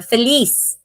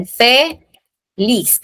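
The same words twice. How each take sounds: First: Said in the usual way. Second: "fe, lis" slowly split, pause before lis; "fe, lis" as two separate beats; syllable by syllable. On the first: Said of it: "lis yung mataas". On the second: Shown as a demonstration. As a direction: draw out "fe", pause, then finish on "lis". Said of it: "last syllable natin ay yung lis".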